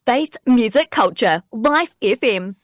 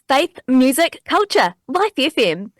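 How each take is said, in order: First: It is said in a polished radio-announcer way. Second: It is said in a young, upbeat way. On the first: "a bit more radio sounding" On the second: "a sort of a younger and upbeat version"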